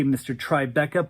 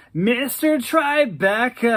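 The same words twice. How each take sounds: First: Said in the usual way. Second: Higher, louder, slow savoring warble; Daryl's pleased warble. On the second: Acted. Daryl delighted by his new nickname, slow high warble. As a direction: roll the nickname out, flattered. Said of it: "He laughed and said".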